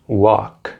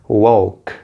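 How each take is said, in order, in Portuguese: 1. O som do L é mudo na palavra. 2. O som do L é pronunciado na palavra. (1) "o L não é pronunciado, assim como no verbo walk" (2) "no verbo também não é walk"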